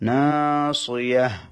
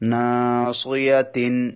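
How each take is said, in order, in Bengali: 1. শব্দটি একটি চূড়ান্ত h ধ্বনি দিয়ে শেষ হয়। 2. শব্দটি একটি পূর্ণ t সিলেবল দিয়ে শেষ হয়। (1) "যখন ওয়াকফ করব নাসিয়াহ" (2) "ওয়াকফ না করলে তিন"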